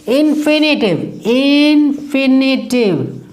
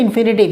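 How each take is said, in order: First: "infinitive" drawn out high, syllable by syllable; emphatic drilling. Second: Said in the usual way. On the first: Shown as a demonstration. Teacher answering own question for students, "infinitive" high and stretched. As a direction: drill "infinitive" slowly on a raised pitch.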